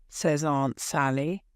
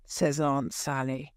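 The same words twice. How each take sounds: The two takes are said the same way.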